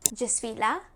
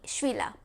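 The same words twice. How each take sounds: First: The word je is said as a full syllable. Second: The je is shortened and joined to suis.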